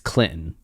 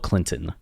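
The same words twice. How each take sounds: First: The middle T sound is dropped. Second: The middle T sound is clearly pronounced. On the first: "there's no T" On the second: "I used to like enunciate the T"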